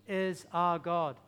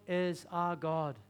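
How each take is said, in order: Both takes have the same delivery.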